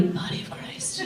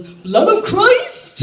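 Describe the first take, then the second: First: Hushed voiceless whisper. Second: High, slow hammed-up proclamation; mock toast. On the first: Retold or imitated. Someone behind her whispering, voiceless and hushed. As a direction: breathe it from behind like a secret. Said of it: "I heard from behind me". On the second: Dad's friend raising shrimp wine, hammed-up high shout. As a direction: raise a glass and cry it out. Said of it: "lifts it in the air and goes".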